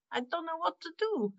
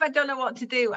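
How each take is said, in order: First: Much higher put-on voice, laugh close behind; acted admission of cluelessness. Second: Said in the usual way. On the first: Shown as a demonstration. Improviser showing the host a toolkit trick, comic put-on helplessness. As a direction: play being stumped in a high comic voice. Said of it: "I can actually say".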